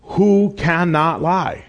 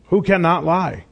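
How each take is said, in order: First: Slow, weighty "Who cannot lie?"; "Who cannot lie?" slow and deliberate, every word weighed; slow emphasis. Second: Said in the usual way. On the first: Shown as a demonstration. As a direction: lean on "Who cannot lie?" drawn out slowly. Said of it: "and it's the one Todd read". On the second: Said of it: "that I want to emphasize".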